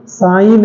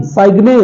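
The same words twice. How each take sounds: First: Said in the usual way. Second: साइग्ने with the g sounded; wrong pronunciation. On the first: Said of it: "silent है". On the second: Shown as a demonstration. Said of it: "नहीं".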